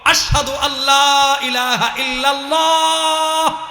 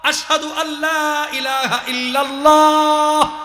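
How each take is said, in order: The two takes are said the same way.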